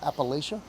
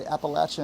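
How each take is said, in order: First: Appalachia with a long a and "sh" in the third syllable; outsider pronunciation. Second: Appalachia with a short a and "ch" in the third syllable; regional pronunciation. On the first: Southerner showing the outsiders' Appalachia, with "LAY-sha". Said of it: "and not Appalachia". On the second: Southerner showing how locals say Appalachia, with "LATCH". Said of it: "Notice I say Appalachia and not". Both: Shown as a demonstration.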